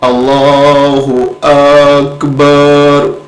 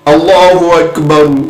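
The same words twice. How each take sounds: First: The vowels in Akbar are drawn out long. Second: The vowels in Akbar are kept short. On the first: The prayer becomes invalid. The speaker calls it wrong. "अकबर के अलिफ को भी बढ़ा दिया मैंने, उधर बा को भी बढ़ा दिया" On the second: The prayer begins validly. The speaker calls it right. "ठीक है, नमाज शुरू"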